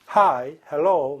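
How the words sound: It is said flatly with a deliberately clumsy accent. It avoids sounding like those women. "발음을 일부러 망치는 거예요"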